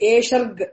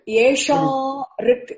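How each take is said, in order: First: The two words are run together. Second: The two words are said separately. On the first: "They would have given us esherg" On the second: "Sandhi, break it"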